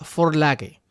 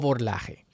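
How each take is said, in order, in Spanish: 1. Se pronuncia con pronunciación alemana. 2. Se pronuncia con pronunciación española. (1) "una palabra alemana que se pronuncia" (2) "en español muchos pronuncian"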